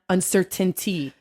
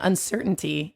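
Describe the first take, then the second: First: Every T sound is clearly pronounced. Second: The T sounds are softened or dropped. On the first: The speaker calls it wrong. "too many T's and too many emphases" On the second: The speaker calls it right. "you're just choosing to not say letters"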